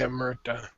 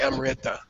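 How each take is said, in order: First: The R sound is said as 'ir'. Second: The R sound is said as 'ri'. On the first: The speaker calls it right. "You say Amrita" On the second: The speaker calls it wrong. "You don't say Amrita"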